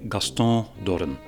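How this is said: The name is said French-style, with a nasal ending. "Personally, I say ... you dropped the N at the end ... I made it nasal"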